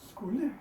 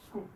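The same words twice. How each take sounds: First: Every sound of the word is fully pronounced. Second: The end of the word is cut off. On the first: The speaker calls it wrong. "which is the overpronounced version" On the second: The speaker calls it right. "We just say skuld. So we just cut it off"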